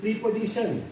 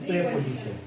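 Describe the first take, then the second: First: The first vowel is a long ee sound. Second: The first vowel is a short e sound. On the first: The speaker calls it wrong. "No" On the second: The speaker calls it right. "Not प्री, this is प्रे"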